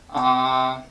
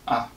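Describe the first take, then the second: First: The pitch stays level without changing. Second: The syllable is very short and lazy. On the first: "you keep the pitch, and you don't change it" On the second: "Neutral tone sounds very short and very lazy"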